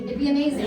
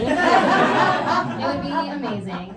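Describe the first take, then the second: First: Said in the usual way. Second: Slow, stretched amazing with a laugh; dreamy drawn-out repeat. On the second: Shown as a demonstration. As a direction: savour the word amazing slowly. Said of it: "repeated slowly with laugh".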